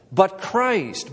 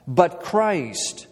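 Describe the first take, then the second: First: "But Christ" lifted and pressed on "Christ"; stress on Christ. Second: "But Christ" with weight on "Christ", falling; stress on Christ. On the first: Preacher repeating the turn for the church, emphatic. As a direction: hit "Christ" hard, set it against despair. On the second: Preacher stressing the contrast to the congregation, firm. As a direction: lean hard on "Christ" to mark the contrast. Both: Shown as a demonstration. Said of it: "a strong contrast".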